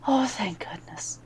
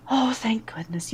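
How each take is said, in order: First: Whispered thanks on a sigh of relief; relieved whisper. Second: Breathy whispered relief, falling; relieved whisper. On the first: Mother Superior whispers relief, hands clasped over her heart. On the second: Mother Superior whispers relief to the returning Pelanavan. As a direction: sigh out the thanks in a whisper. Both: Acted.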